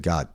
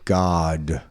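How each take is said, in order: First: The vowel is clipped short. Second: The vowel is fully drawn out. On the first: The word has less impact. The speaker calls it wrong. "like all of a sudden I cut out the ah part of it" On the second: The word feels good and carries impact. The speaker calls it right. "if I actually say God, well, that feels good"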